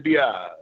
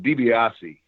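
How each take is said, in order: First: The name is said without its final vowel. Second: The whole name is said, final vowel included. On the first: "they would drop that e" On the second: "is the the uh, correct pronunciation"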